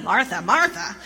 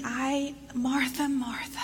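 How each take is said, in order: First: Firm, impatient call of the name; stern scolding. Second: Softly breathed name, almost whispered; caring and tender. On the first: Jesus scolding a busy Martha, firm and impatient. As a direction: say her name like a reprimand. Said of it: "It's not like". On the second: Jesus tenderly calls Martha, whispered and much softer. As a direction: call her name like a gentle caress. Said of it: "so caring and endearing". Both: Shown as a demonstration.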